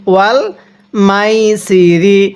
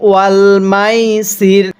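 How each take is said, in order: First: "মাইসিরি" read slowly, keeping the final -ri vowel; "ওয়াল মাইসিরি" drawn out with the closing i sounded; recited with ending. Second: "মাইসির" slowly, stopping on r and dropping the final vowel; pausal form. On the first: Teacher reads through without a stop, keeping the final vowel. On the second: Teacher shows how to stop on the word, vowel dropped. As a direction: end "ওয়াল মাইসির" cut on the r, as when pausing. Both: Shown as a demonstration. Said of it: "এখন যদি আমরা এখানে ওয়াকফ করি".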